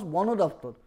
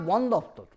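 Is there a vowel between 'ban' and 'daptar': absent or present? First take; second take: present; absent. First: An 'o' vowel is heard between the two parts. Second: No vowel is heard between the two parts. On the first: The speaker calls it right. "you pronounce Banodaptar ... there is a vowel O is added" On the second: The speaker calls it wrong. "it is not Bandaptar"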